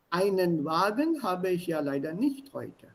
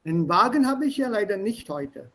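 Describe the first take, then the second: First: Said in the usual way. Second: "Einen" shortened to "'n" before Wagen; rapid speech. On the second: Shown as a demonstration. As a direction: run it together, "Einen" almost swallowed. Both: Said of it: "This is rapid speech".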